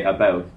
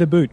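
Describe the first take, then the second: First: About said the Canadian way, leaning toward a boot. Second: "a boot" said as two words, vowel like boot; mock the Canadian about as a boot. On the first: Shown as a demonstration. Explaining why people giggle, a Canadian-sounding about. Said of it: "And then I say". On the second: Teasing Kevin's accent, a mock Canadian a boot. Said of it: "it's 'cause you said".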